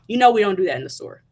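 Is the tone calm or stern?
stern. It is said in a sterner, louder tone.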